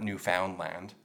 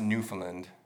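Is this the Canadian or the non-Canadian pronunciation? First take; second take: non-Canadian; Canadian. First: It is said the way non-Canadians say it. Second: It is said the way Canadians say it. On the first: The speaker calls it wrong. "not Newfoundland" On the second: The speaker calls it right. "we pronounce it Newfoundland here in Canada"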